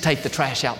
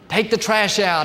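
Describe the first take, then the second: First: It is said in a warm, gentle, kind tone. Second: It is said in a hard, harsh, barking tone. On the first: It is a friendly request. The speaker calls it right. "in a loving and a kind way" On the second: It is an order that must be obeyed. The speaker calls it wrong. "Hard and harsh"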